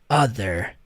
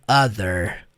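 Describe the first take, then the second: No difference in how they are said.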